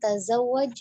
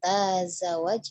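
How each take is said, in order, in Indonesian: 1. Vokal pertama dibaca pendek. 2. Vokal pertama dibaca panjang. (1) "Pendek semua di sini tidak ada yang dipanjangkan" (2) "bukan tazawwaj ya, jadi tidak dibaca panjang taknya"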